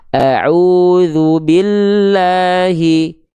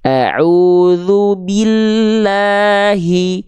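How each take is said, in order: First: The i vowels are slack, drifting toward e. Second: The i vowels are full and clear. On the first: The speaker calls it wrong. "Banyak orang melafalkan" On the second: The speaker calls it right. "Yang harusnya"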